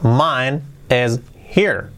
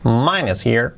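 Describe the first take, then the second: First: Very slow, separated words; careful word-by-word dictation; slow model. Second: Quick, linked words; brisk natural-speed model; said fast. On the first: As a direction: leave a gap after each word. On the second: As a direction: run it together fluently. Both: Shown as a demonstration. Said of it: "Dicho rápido".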